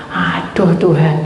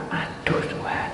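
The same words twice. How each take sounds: First: Said in the usual way. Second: Inner whisper. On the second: Retold or imitated. Itu dalam hati saya.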